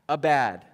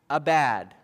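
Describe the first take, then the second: The two takes are said the same way.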